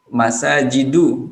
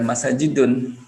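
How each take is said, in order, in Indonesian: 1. Kata ini berakhir dengan vokal tanpa n. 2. Kata ini berakhir dengan bunyi n tambahan. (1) "Masajidu bukan masajidun" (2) "bukan masajidun"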